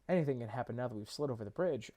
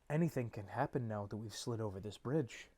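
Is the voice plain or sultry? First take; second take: plain; sultry. First: It is read in a plain voice. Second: It is read in a sultry voice.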